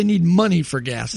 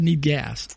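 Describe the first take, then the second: First: Money stressed, spoken slowly. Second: Said in the usual way. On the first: Shown as a demonstration. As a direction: lean on the word money. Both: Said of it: "It said, Need gas".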